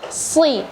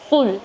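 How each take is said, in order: First: The s sound has clear air coming out. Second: The s sound has little air coming out. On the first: The speaker calls it right. "Jadi harus sui. Jadi harus ada angin yang keluar" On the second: The speaker calls it wrong. "membacanya sul"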